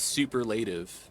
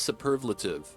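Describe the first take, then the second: First: The word has a changed, misread pronunciation. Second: The word has its usual dictionary pronunciation. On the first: The speaker calls it wrong. "I read it as superlative, right? So I completely butchered it" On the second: The speaker calls it right. "is pronounced superlative"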